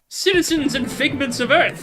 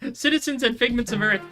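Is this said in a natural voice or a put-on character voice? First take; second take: character voice; natural. First: It is said in a put-on character voice. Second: It is said in the speaker's ordinary voice. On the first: The speaker calls it right. "I gotta do the voice" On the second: The speaker calls it wrong. "I forgot the voice"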